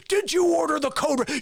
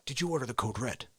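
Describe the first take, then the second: First: High, forceful demand; shouted interrogation. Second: Low, soft, quick question; quiet interrogation. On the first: Lawyer breaking the colonel, loud and demanding. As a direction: explode into the question. Lawyer's question, now exploding. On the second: Lawyer asking the colonel, low and controlled. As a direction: press him without raising the voice. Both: Acted.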